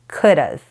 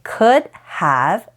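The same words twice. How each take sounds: First: The words blend into one reduced form. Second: Both words are said fully and separately.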